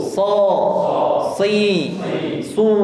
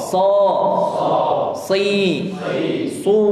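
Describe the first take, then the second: No difference in how they are said.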